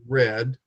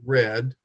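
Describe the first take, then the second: First: The vowel is short, like 'red'. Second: The same.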